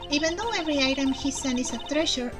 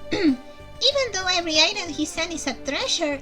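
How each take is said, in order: First: It is read in a plain, neutral voice. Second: It is read in a put-on character voice. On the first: The speaker does not know who is talking. "Neutral voice" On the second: The speaker now thinks a known character is talking. "pretty sure it's Kate"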